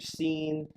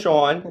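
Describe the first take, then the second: First: The name begins with an s sound. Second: The name begins with an sh sound. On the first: The speaker calls it wrong. "people pronounce my name Seen" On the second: The speaker calls it right. "my name's Sean"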